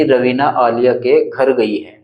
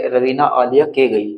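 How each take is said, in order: First: Slow, clear full sentence with घर put back; slow, clear demo of the corrected sentence; corrected reading. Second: Slow, word by word, with the gap left in; slow demo of a sentence missing a word; slow wrong reading. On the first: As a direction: read the fixed sentence out to show it now makes sense. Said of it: "ऐसे बोलना चाह रहा था वाक्य में". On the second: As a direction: read the broken sentence aloud to show it makes no sense. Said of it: "अगर हम इसको ऐसे पढ़ेंगे". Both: Shown as a demonstration.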